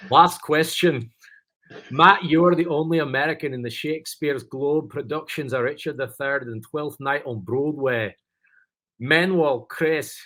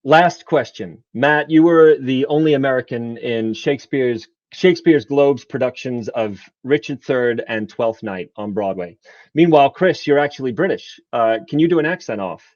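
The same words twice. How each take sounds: First: Higher-pitched, put-on Scottish reading; Scottish accent. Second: British speaker putting on General American; American accent. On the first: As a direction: read the question in a hammed-up Scottish accent. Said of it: "I'll follow it up with my Scottish". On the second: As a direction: read it out in a careful American accent. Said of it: "doing my American accent". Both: Shown as a demonstration.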